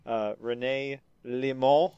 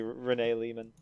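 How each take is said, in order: First: The name is said with a French pronunciation. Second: The name is said with an English pronunciation. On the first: "I'm going to pronounce it like it's French" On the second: "even though it's probably"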